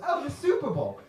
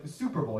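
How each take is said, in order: First: High-pitched scornful echo; mocking repeat. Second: Said in the usual way. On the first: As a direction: throw the name back in mockery. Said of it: "He goes". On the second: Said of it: "And I was like".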